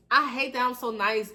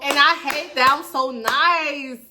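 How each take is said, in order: First: Said in the usual way. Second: Slow and drawn out, a little louder and higher; slow, drawn-out self-complaint; slow exasperated confession. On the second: Real, not acted. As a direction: lean into the regret, slowly.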